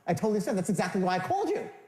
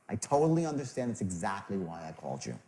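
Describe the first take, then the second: First: It sounds eager, like wanting money. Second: It sounds warm and caring.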